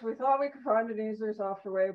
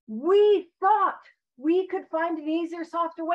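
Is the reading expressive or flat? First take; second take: flat; expressive. First: It is read in a flat, droning monotone. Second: It is read with lively, varied inflection. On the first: The speaker calls it wrong. "like the Peanuts, right? The teacher from the show, The Peanuts, like rah, rah, rah, rah" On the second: The speaker calls it right. "I'm going to read it with the inflection that I feel like it was meant to be read with"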